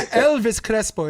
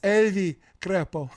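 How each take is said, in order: First: The final s of Elvis is pronounced. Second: The final s of Elvis is dropped. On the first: "So it's not Elvis Crespo" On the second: "it's [name]"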